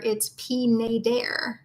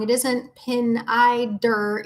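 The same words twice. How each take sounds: First: "Pinader" said slowly, with an open "-ader"; slow correction, "Pinader"; right pronunciation. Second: "Pinider" said slowly, ending in a flat "-ider"; slow "Pinider", the way people get it wrong; wrong pronunciation. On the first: Correcting how the pen group says it, slowly and deliberately. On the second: Listener question on the brand name, the wrong way said slowly. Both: Shown as a demonstration. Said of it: "pronouncing Pinida wrong".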